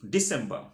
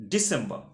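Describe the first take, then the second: No difference in how they are said.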